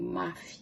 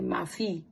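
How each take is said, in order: First: The stress is on the first syllable. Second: The stress is on the last syllable. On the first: The speaker calls it right. "The stress is on the syllable, second to last syllable" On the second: The speaker calls it wrong. "We don't say mafi"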